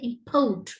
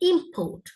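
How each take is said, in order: First: The stress is on the second syllable. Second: The stress is on the first syllable. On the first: The word is used as a verb. "Verb ஆக import" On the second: The word is used as a noun. "noun ஆக இருந்தா import"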